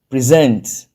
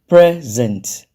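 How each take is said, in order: First: The stress is on the second syllable. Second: The stress is on the first syllable. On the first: It means to give something formally. "as a verb, the stress is on the second syllable" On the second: It means a gift. "as a noun, the stress is on the first syllable"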